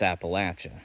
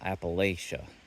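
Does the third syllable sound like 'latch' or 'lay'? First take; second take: latch; lay. First: The third syllable sounds like 'latch'. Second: The third syllable sounds like 'lay'. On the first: The speaker calls it right. "It's Appalachia. / I'll throw an apple at you" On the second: The speaker calls it wrong. "It's not Appalachia"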